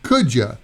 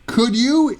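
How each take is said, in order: First: The word 'you' is reduced to 'ya'. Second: The word 'you' is pronounced in full.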